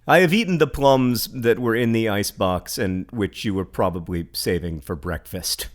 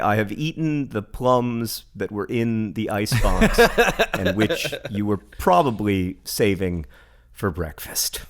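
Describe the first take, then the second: First: It is read plainly, like normal speech. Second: It is read in an exaggerated poetic style.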